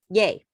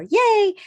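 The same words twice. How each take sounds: First: Understated, lower-pitched yay; a small yay without the fanfare; low-key cheer. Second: High, loud, drawn-out yay; spirited cheer. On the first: Coach showing clients a modest celebration, low-key. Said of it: "It doesn't have to be all spirited". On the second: Coach demonstrating an over-the-top celebration, spirited cheer. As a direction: cheer it like a happy dance. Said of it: "do a happy dance every time". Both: Shown as a demonstration.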